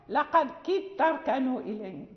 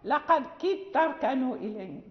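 First: The two t sounds merge into one. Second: The same.

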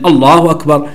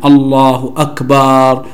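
First: The first vowel of akbar is short and quick. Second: The first vowel of akbar is drawn out long. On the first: The speaker calls it right. "هكذا حذفا" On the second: The speaker calls it wrong. "إذا مد الهمزة في أكبر فإنها تفسد المعنى"

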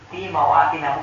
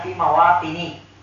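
First: The word ends with an 'a' vowel. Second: The word ends with an 'i' vowel. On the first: The speaker calls it right. "Fi mawatina bukan fi mawatini" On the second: The speaker calls it wrong. "bukan fi mawatini"

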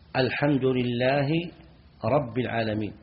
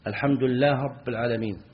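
First: The h sound is pronounced clearly before rabb. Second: The h sound is dropped and merged into rabb.

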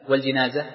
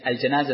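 First: The first syllable has the vowel 'i'. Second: The first syllable has the vowel 'a'. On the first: The deceased person. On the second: The thing that is carried.

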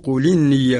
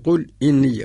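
First: The vowel joins 'qul' with no glottal stop. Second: A glottal stop is heard before 'inni'. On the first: This is the reading of Warsh. "لأقرأ لورش نقول قل إني" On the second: This is the basic reading. "الأصل قل إني"

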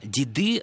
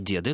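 First: The stress is on the second syllable. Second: The stress is on the first syllable. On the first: This is a merely tolerated form. The speaker calls it wrong. "Деды – это допустимая форма" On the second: This is the standard literary form. The speaker calls it right. "литературной формой считается форма деды, то есть ударение сохраняет свое постоянное место"

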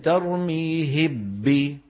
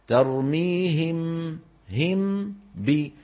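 First: The m disappears completely into the b. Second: The lips close once with nasal hum into b. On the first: The speaker calls it wrong. "أو إني أدغم" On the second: The speaker calls it right. "فيطبق على ميم ويجافي عن إيه؟ عن باء"

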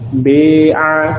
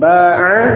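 First: The first vowel is tilted toward e. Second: The first vowel is an open a. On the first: "Maka dibaca imalah menjadi bi'a" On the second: "contohnya ba'a"

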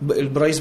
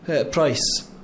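First: The word begins with a b sound. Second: The word begins with a p sound. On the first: The speaker calls it wrong. "ما يقولش البرايس" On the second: The speaker calls it right. "اللي تخليه يقول مثلا برايس"

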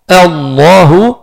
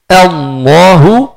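The two takes are said the same way.

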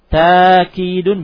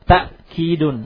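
First: The first vowel is a long a. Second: A glottal stop follows the first vowel. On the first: "ta'kidun bilalif" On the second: "Ta'kidun bilhamzah, dengan hamzah"

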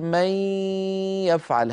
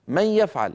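First: The nasal n sound is drawn out long. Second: The nasal n sound is brief and quick. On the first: This is Quranic recitation. "لكن في القرآن نقول من يفعل. هذا المط للغنة" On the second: This is ordinary everyday speech. "العرب في كلامهم اليومي يقولون من يفعل هذا، من يفعل، هكذا على طول"

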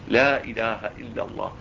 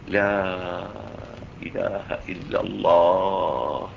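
First: The vowel of 'la' is kept short. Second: The vowel of 'la' is drawn out long. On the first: God is named quickly, before death could interrupt. "القصر" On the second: The negation of every other deity is dwelt upon. "المد"

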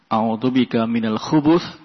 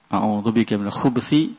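First: A u vowel sounds between b and th. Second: The b is followed directly by th. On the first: It means protection from male devils. "kalau dibaca dengan dhammah" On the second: It means protection from evil in general. "Kalau dibaca dengan sukun"

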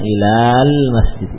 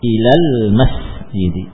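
First: The vowel after the l sound is held long. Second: The vowel after the l sound is kept short. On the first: The speaker calls it wrong. "bukan ilal masjid" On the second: The speaker calls it right. "seakan tidak ada alifnya"

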